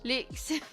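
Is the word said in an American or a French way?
French. It is said with a French pronunciation. The speaker calls it right. "I say it like French"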